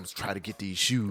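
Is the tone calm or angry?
angry. It is said in an angry tone.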